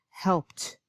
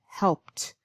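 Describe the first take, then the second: No difference in how they are said.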